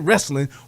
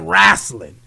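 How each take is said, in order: First: The word has a plain standard pronunciation. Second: The word has a casual dialect pronunciation. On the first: This is how outsiders say it. "We don't say" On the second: This is how the speaker's community says it. "we say"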